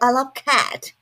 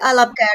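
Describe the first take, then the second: First: The word cat has a standard English sound. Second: The word cat has an Indian-accented sound. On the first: The speaker calls it right. "That's the right sound" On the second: The speaker calls it wrong. "Indian people say cat"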